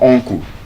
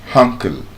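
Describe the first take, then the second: First: The first vowel sounds like 'oh'. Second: The first vowel sounds like 'uh'. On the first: The speaker calls it wrong. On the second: The speaker calls it right.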